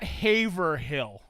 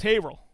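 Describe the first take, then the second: First: Haverhill said slowly the outsider's way, full HAV-er-hill; Haverhill spelled out slowly like a flatlander says it; wrong local pronunciation. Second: Haverhill said the local way, HAY-ver-ill, quick and clipped together; Haverhill said as the locals say it, short and run together; correct local pronunciation. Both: Shown as a demonstration. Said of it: "Flatlanders call it Haverhill".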